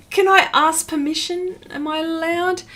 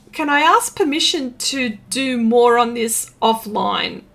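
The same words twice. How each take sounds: First: Higher, pleading repeat of "Can I ask permission?"; mock pleading. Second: Said in the usual way. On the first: Real, not acted. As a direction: beg playfully, stressing "I" with a rise.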